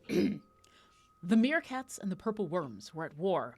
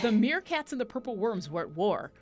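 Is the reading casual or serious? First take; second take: serious; casual. First: It is read in a grave, serious voice. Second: It is read in a plain, casual voice.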